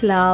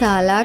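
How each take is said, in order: First: The two consonants blend with no vowel. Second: A vowel separates the two consonants. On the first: The speaker calls it right. "స్లా అవుతుంది" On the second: The speaker calls it wrong. "సాలా కాకుండా"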